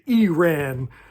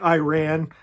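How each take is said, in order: First: The word does not begin like 'I ran'. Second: The word begins like the words 'I ran'. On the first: The speaker calls it right. "They want me to say Iran" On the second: The speaker calls it wrong. "like I say Iran, they hate that"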